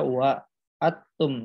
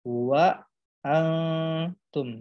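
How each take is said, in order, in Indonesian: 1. Bunyi n sama sekali tidak dilafalkan. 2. Huruf n adalah bunyi sengau yang samar dan tersembunyi. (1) "jadi bukan dibaca wa atum" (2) "tetapi wa antum"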